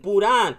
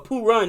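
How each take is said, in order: First: The name is said with a Spanish accent. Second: The name is said in a plain English accent.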